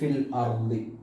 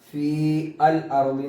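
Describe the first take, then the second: First: The long vowel is dropped before the article. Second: The long vowel is kept before the article. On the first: The speaker calls it right. "ഹദഫ് ചെയ്തപ്പോ എന്തായി?" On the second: The speaker calls it wrong. "എന്ന് വായിക്കുന്നിടത്ത്"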